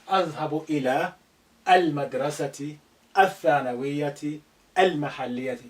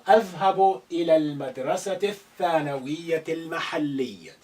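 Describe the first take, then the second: First: The 'a' of 'al' is pronounced separately. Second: The 'a' of 'al' is silent and linked. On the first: The speaker calls it wrong. "don't say" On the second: The speaker calls it right. "a of al here need to be silent"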